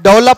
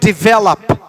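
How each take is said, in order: First: The first syllable has an open 'deh' vowel. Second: The first syllable has a short 'dih' vowel. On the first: The speaker calls it wrong. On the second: The speaker calls it right.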